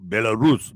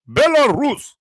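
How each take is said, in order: First: Said in the usual way. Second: "Belarus" said high and stretched in a mock Russian accent; playful Russian accent on "Belarus". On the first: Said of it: "Is, is that how I say it?". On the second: Shown as a demonstration. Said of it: "Do I sound Russian?".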